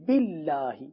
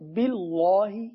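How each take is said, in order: First: The L sound is thin and light. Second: The L sound is heavy and full-mouthed. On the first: The speaker calls it right. "اللہ کا نام باریک پڑھا جائے گا" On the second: The speaker calls it wrong. "باللہ پڑھنا غلط ہے"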